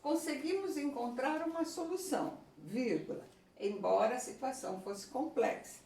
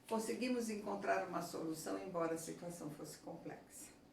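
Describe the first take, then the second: First: There is a pause before 'embora'. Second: It runs straight on without a pause. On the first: "eu posso colocar uma pausa no lugar" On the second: "falar tudo junto"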